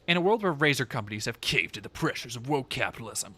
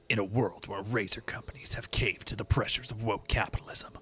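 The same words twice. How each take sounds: First: It is read in his normal voice. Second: It is read in a gravelly Solid Snake voice.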